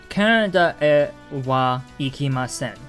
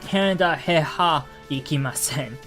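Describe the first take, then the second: First: The particles are pronounced e and wa. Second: The particles are pronounced he and ha. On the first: The speaker calls it right. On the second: The speaker calls it wrong.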